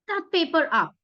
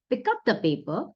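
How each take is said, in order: First: It is said forcefully, with strong emotion. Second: It is said calmly, in a normal tone.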